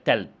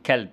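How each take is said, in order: First: تلب with t replacing the opening k; child's تلب, t-initial; child's fronting error. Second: Said in the usual way. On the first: Shown as a demonstration. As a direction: say تلب, k moved forward to t. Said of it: "يقول لك تلب". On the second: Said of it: "زي كلمة كلب".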